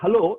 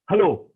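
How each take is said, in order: First: It is said in a sweet voice. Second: It is said in a plain, unsweet voice.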